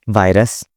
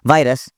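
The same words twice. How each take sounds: First: It is said in a calm tone. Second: It is said in an angry tone.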